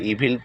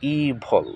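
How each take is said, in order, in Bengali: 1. এটি 'ee' দিয়ে শুরু এবং 'vil' দিয়ে শেষ হয়। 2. এটি 'ee' দিয়ে শুরু এবং 'vul' দিয়ে শেষ হয়। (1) "বা ইভিল পড়ে থাকে" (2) "শুদ্ধ উচ্চারণ হবে ইভল"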